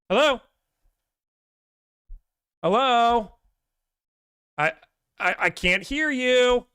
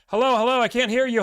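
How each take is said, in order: First: It sounds like a believable, convincing act. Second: It sounds like a flat, unconvincing act.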